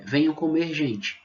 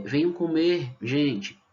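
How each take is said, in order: First: "Venham comer gente" run together fast and high; quick reading. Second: "venham comer" slowly, pause, then "gente" emphasized; stress on gente. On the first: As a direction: call them all in one go. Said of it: "eu faço a leitura rápida". (leitura rápida, sem pausa) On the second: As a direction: lean on "gente" after a pause. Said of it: "dando uma entonação maior na expressão gente". (ênfase em "gente" depois da pausa) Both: Shown as a demonstration.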